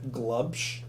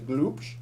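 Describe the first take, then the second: First: It is said with a plain English accent. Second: It is said with a German accent.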